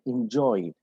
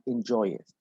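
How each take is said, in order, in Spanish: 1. La terminación se une a la palabra sin sílaba extra. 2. La terminación se pronuncia como una sílaba extra. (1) "So we say uh, enjoy" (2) "not enjoy it"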